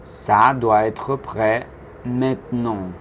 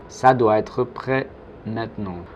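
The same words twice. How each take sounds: First: Slow, measured French with a pause before "maintenant"; slow model. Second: Said in the usual way. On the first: Shown as a demonstration. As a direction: model it slowly for learners to repeat. Teacher's slow model sentence.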